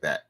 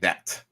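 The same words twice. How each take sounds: First: The word is said in a relaxed, casual way. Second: The word is articulated overly carefully and precisely. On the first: This is how native speakers of standard English say it. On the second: The speaker is not used to speaking standard English. "she says like that. Like she's trying to pronounce her words"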